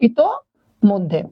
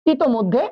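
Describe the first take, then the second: First: ইতোমধ্যে drawn out very slowly, syllable by syllable; slow clear pronunciation. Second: Said in the usual way. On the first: Shown as a demonstration. Teacher showing students how to say ইতোমধ্যে, very slowly and clearly. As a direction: say ইতোমধ্যে slowly so students hear each part. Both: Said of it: "এরকম ভাবে শব্দ উচ্চারণ করব".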